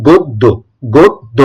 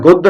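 First: "গদ্য" split into two syllables, god-do, with o; careful model of "গদ্য" with a rounded o; correct pronunciation. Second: "গদ্য" run together as the rejected form; rejected pronunciation. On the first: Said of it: "সঠিক উচ্চারণটা হচ্ছে". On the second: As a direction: say "গদ্য" quickly, as the form to be corrected. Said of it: "এটা গদ্য না". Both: Shown as a demonstration.

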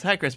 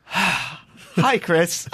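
First: Lighter, higher greeting at usual volume; different phone tone. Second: Exasperated desk clerk after a sigh, higher pitched; sigh, then greet the nuisance caller; weary sighing greeting. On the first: Desk lady answering in a different voice, mildly pleasant. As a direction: answer the phone in a fresh, milder tone. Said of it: "it's a different voice, a different tone". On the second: Desk lady answering yet another call, exasperated. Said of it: "now it's one of these". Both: Retold or imitated.

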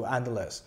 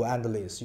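First: Endless said as "EN-dless", e vowel, ending "less"; another common pronunciation. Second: Endless said as "AN-dlis", open a vowel, ending "lis"; one common pronunciation. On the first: (endless 读作 en-dless，e 音，结尾读 less) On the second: (endless 读作 an-dlis，开口 a 音，结尾读 lis) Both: Shown as a demonstration. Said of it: "有的人就读endless".

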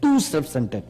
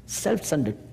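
First: Weight on "too" in "too self-centered"; "too" pressed, then "self-centered" falls; stress on too. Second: Said in the usual way. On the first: Shown as a demonstration. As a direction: lean hard on the word "too". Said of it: "than to say too self-centered". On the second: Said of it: "just to say self-centered is okay".

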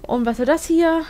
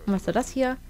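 First: "Und was soll das hier?" asked louder with "hier" stressed; louder, puzzled "Und was soll das hier?". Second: Said in the usual way. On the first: Shown as a demonstration.

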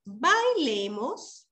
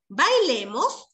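First: Very slow "Bailemos" with a rise; drawn-out invitation. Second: Slow, asking Bailemos with a rise; "Bailemos" drawn out as an invitation question. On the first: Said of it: "con signo de exclamación". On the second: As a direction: ask "Bailemos" slowly, rising at the end. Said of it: "lo hace con una pregunta". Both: Shown as a demonstration.

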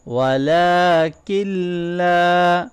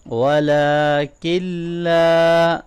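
First: ولکن with its standing fatha held long, then a long لا. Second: ولکن with its standing fatha drawn long. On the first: Teacher repeating after explaining lengthening, slow recitation. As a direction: hold the vowel in ولکن and stretch لا. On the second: Teacher demonstrating the long standing fatha, slow recitation. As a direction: lengthen the vowel in ولکن, then لا. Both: Shown as a demonstration. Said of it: "کھڑی زبر کو لمبا کریں گے".

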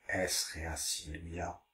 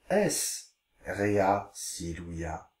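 First: Repeated more softly, a bit slower; softer repeat. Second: Slow, careful Latin reading. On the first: Teacher repeats the Latin softly for pupils. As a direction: echo it back quietly. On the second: Teacher reading Latin slowly to pupils. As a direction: read each word out slowly. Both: Shown as a demonstration. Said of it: "Je vous lis les phrases".

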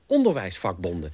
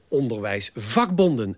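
First: ONderwijsvakbonden, accent on the opening syllable; corrected stress. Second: OnderwijsVAKbonden, accent on the third part; stress on VAK. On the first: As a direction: say onderwijsvakbonden with the weight on ON. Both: Shown as a demonstration. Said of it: "mijn innerlijke stem verbetert".

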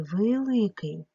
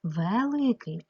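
First: "великий" with the first vowel said as "и"; E turned to Y. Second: "Великий" with an open E in the first syllable; clear E vowel. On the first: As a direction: draw out "великий" as vy-ly-kyi. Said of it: "Не знаю, як писати". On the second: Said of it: "Е не наголошене". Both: Shown as a demonstration.

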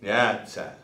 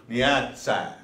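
First: "Nyatsa" repeated a little lower and shorter; Arapaho word repeated. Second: "Nyatsa" said clearly with a falling end; Arapaho word. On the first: Teacher repeating the Arapaho word, settled model. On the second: Teacher showing the Arapaho word, clear model. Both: Shown as a demonstration. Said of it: "that's how they would say to go to school".

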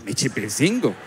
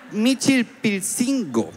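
First: Said in the usual way. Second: MICHILPILCINGO stretched out high and very slowly; high, painstaking attempt at Michilpilcingo; laboured sounding-out. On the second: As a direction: draw Michilpilcingo out syllable by syllable, pitched up. Sounding out a difficult name.

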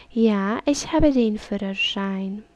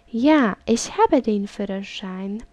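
The two takes are said the same way.

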